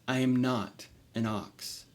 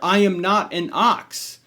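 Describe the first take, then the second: First: It is said quietly. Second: It is said loudly.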